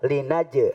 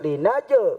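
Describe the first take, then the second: First: The j ends with a light, small bounce. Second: The j ends with a strong, exaggerated bounce. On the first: The speaker calls it right. "dibacanya tipis-tipis... asal ada pantulan" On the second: The speaker calls it wrong. "Jangan sampai linaje, nggak perlu"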